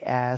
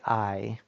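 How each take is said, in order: First: The vowel is a plain open 'ah' sound. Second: The vowel glides from 'ah' to 'ee'. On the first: The speaker calls it wrong. "Don't say ah" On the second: The speaker calls it right. "say I"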